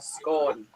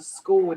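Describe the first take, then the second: First: The word rhymes with gone. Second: The word does not rhyme with gone. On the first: This is how it is said in Scotland. The speaker calls it right. "In Scotland, it's a scone, like gone" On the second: This is how people elsewhere say it. The speaker calls it wrong. "people say it's a scone. It's not"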